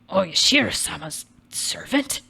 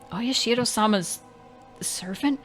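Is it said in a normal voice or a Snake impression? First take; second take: Snake impression; normal voice. First: It is said in an imitation of Snake's voice. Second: It is said in the speaker's normal voice.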